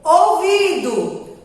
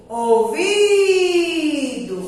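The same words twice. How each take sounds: First: Said in the usual way. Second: "Ouvido" with a long held VI; drawn-out stressed syllable. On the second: Shown as a demonstration. Teacher showing children the strong syllable, drawn out. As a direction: stretch the middle of "Ouvido": ouviiido. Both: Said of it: "Aonde a tia [name] demorou mais?".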